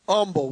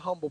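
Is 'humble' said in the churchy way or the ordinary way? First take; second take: churchy; ordinary. First: The word gets a churchy, altered pronunciation. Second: The word gets its ordinary everyday pronunciation. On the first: The speaker is in church. "you learn how to mispronounce some words, like humble" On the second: The speaker is out at work. "when you're out in the world, you're on your job, you say"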